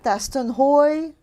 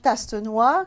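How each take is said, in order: First: The surname is said with an American pronunciation. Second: The surname is said with a French pronunciation. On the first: "in America" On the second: "in French"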